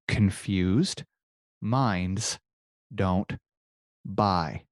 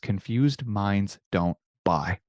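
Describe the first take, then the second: First: Each word is carefully and clearly enunciated. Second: The phrase is said casually at normal speed.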